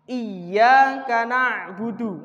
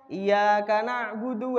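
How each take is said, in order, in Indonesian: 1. Bunyi y-nya dobel dan dibaca lebih panjang. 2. Bunyi y-nya tunggal dan dibaca pendek. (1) "Iyyaka, ya-nya ada tasdidnya" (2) "kalau kita membacanya tidak ada tasdidnya"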